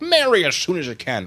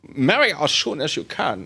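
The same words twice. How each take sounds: First: It is said in the speaker's ordinary accent. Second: It is said in a put-on German accent.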